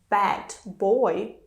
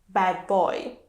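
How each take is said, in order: First: The D at the end of bad is kept. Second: The D at the end of bad is dropped.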